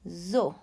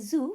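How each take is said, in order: First: It is said with a French pronunciation. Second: It is said with an English pronunciation. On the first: The speaker calls it right. "we say zoo, comme ça" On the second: The speaker calls it wrong. "In English, in French, sorry, we don't say zoo"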